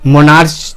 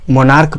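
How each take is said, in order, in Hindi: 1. यह शब्द 'ch' ध्वनि से खत्म होता है। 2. यह शब्द 'k' ध्वनि से खत्म होता है। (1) "मोनार्च तो नहीं पढ़ते हैं" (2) "मोनार्क पढ़ते हैं"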